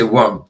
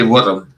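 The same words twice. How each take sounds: First: Said in the usual way. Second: "worm" said as "wurrum"; rolled R, two syllables in "worm"; home-dialect worm. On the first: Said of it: "I would say worm to you". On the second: Shown as a demonstration. As said to their brother, "wurrum" with rolled R. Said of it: "if I was talking to my brother".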